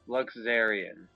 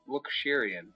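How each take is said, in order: First: The middle consonant is a z sound. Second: The middle consonant is an sh sound. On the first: The speaker calls it right. "so it's a Z sound, not a sh" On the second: The speaker calls it wrong. "I was close to pronouncing it correctly"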